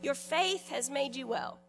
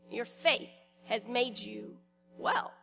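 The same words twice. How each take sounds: First: Said in the usual way. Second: Slow, with pauses after "faith" and before "well"; slow and deliberate. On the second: Shown as a demonstration. Preacher repeats Jesus' words to the congregation, slow and deliberate. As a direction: let "faith", "has made you" and "well" each stand apart. Same line repeated slowly, word groups parted.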